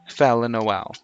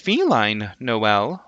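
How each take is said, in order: First: The first part is a short 'fell' sound. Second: The first part sounds like the word 'feline'. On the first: This is how voice chat users came to say it. "it has since become Fel Noel" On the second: This is how the owner first said the name. "I personally was pronouncing it as feline Noel myself"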